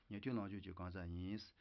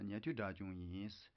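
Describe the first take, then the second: First: Said in the usual way. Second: Slowed down, each syllable laid out; a careful teaching pace. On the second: Shown as a demonstration. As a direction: say it slowly for the learners.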